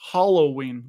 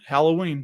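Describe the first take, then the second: First: The first syllable sounds like 'hollow'. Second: The first syllable does not sound like 'hollow'. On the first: This is how the kids say it. "like hollow" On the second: This is how the speaker was raised to say it. "that's how you say it"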